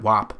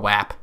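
First: "wap" rhyming with "top"; "wap" with an AH vowel. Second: Nasal Western New York "wap". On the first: Comedian checking the other pronunciation, "wap" said as "wop". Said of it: "I call it wap". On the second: Comedian showing his own pronunciation, "wap" with a nasal A. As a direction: say "wap" with the short A of "cat". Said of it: "I call it wap 'cause it's my nasally". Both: Shown as a demonstration.

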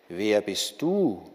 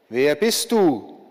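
First: Lower, slow echo of the question; echoing call. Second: Slow, louder call into the distance; calling out again. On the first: The stranger calls the question back, a low slow echo. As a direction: answer like a hollow echo, lower and slower. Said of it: "rief der Fremde zurück". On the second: War calls out to the approaching stranger, slow and loud. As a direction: call out slowly, demanding an answer. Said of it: "rief der Krieg wieder". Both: A narrator's reading.

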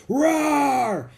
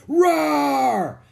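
First: Loud high hammed-up roar; gorilla roar. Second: Louder high hammed-up roar; gorilla roar. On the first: Jack scaring off the leopard, loud hammed-up roar. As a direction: roar like a silverback. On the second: Jack scaring off the leopard, louder hammed-up roar. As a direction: roar again even louder. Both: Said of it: "he roared".

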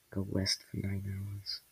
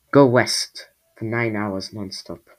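First: Slow, very soft mutter. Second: Slow, louder, firm instruction; speaking up. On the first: Luffy advises the upset squall, muttering. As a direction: mutter it slowly under your breath. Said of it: "muttered Luffy". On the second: Luffy repeats directions to the squall, speaking up. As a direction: say it out slowly and clearly. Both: A narrator's reading.

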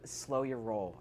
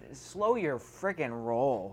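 First: Said in the usual way. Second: "slow your friggin' roll" drawn out slowly, each word weighted; stress on slow your friggin' roll. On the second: Real, not acted. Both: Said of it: "I said".

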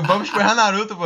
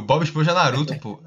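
First: Higher, louder retold repetition; insistent repeat. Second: Said in the usual way. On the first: Retelling a failed pickup line to a confused girl, insistent. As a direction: push the line out louder, as if unheard.

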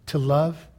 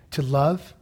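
The two takes are said the same way.

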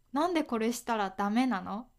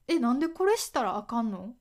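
First: Said in the usual way. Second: Quick question with Kansai intonation; 関西弁. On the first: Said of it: "これはダメという意味です。". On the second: Shown as a demonstration. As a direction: ask briskly in a Kansai accent. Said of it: "なんでのイントネーションも". (関西弁の抑揚で早口に尋ねる)

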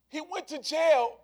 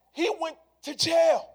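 First: Second take, a little softer, still raised; He went to jail echoed with less push. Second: First take, higher and louder, punched; He went to jail, high and loud; emphatic repeat. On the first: Preacher letting the point ring, slightly softer. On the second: Preacher driving the point home, loud and high. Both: Shown as a demonstration.

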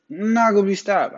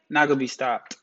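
First: Higher, punchier hype repeat; hyped up. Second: Said in the usual way. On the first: Real, not acted. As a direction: pump yourself up, declare it. Repeats the line, then louder.

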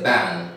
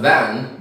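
First: "ban" said for van, with b. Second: Said in the usual way. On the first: Shown as a demonstration. Teacher mimics Bengali speakers, "ban" with b for v. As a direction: say "ban" when you mean van. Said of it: "They have B and V". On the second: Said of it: "Instead of van".

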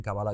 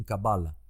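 First: "Kabbalah" stressed on the last syllable, ka-ba-LA; not the English way. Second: "Kabbalah" stressed on the middle syllable, ka-BA-la; English accentuation. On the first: Host showing what English speakers don't say, "Kabbalah" as ka-ba-LA. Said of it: "Ellos no dicen Kabbalah". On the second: Host showing how English speakers say it, "Kabbalah" as ka-BA-la. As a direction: hit BA in "Kabbalah", weak final la. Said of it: "Fíjate cómo lo acentúan". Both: Shown as a demonstration.

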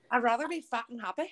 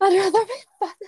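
First: Lightly done Scouse accent, imitating a fighter; a hint of Liverpool Scouse. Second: Laughing while echoing the line; laughing repeat. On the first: Quoting a Scouse fighter, in a light Scouse accent. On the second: Retold or imitated. Echoing her friend's quote, laughing. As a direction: giggle through it, high and loud. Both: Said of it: "that accent was flawless".

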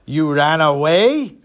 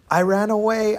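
First: Slow, incredulous big-man voice; drawn-out put-on giant's question; huge gruff man. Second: Put-on higher, small child's confession; lightly acted little boy; timid boy. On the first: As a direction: repeat it slowly as a looming giant. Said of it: "three hundred pound, seven-foot man". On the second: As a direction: admit it like a nervous kid.

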